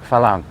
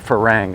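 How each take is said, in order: First: The middle consonant is an L sound. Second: The middle consonant is an R sound. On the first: "the Thai pronounce it falang" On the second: "it's spelled like farang"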